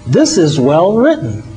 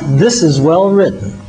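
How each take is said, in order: First: It is said with a surprised tone. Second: It is said with a complimentary tone. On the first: The writer was not expected to write well. "a note of surprise" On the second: The writing is simply being praised. "a note of compliment"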